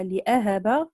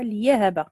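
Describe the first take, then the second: First: لأهب as "li-'ahaba", slowly; with hamza. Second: ليهب as "li-yahaba", slowly. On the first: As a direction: say لأهب slowly, with a glottal stop after li. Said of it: "قرأ بالياء". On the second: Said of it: "وقرأ بالياء". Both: Shown as a demonstration.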